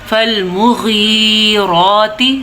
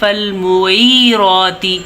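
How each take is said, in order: First: The consonant after 'mu' is a throaty gh. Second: The consonant after 'mu' sounds like ain or ya. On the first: The speaker calls it right. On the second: The speaker calls it wrong.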